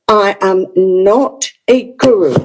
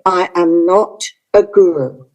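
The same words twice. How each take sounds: First: It is said in a firm, strong tone. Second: It is said in a softer, gentle tone.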